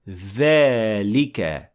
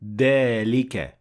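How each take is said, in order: First: The first sound is made between the teeth. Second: The first sound is not a 'th' sound. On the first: The speaker calls it right. "the tongue should be between the front teeth and say ذلك" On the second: The speaker calls it wrong. "or ذلك because these are two different sounds"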